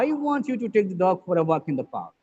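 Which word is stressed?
I. The stress falls on the word I. The speaker, not somebody else, wants it. "here, the stress is on I"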